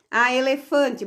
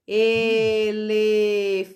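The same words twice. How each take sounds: First: Said in the usual way. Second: E-le-fan-te, very slow, each syllable split; slow syllable count. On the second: Shown as a demonstration. Teacher counting syllables with the pupil, very slowly. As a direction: stretch elefante out syllable by syllable. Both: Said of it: "Vamos contar com a prof".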